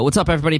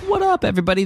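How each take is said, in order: First: The voice is at its normal pitch. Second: The voice is pitched unusually high.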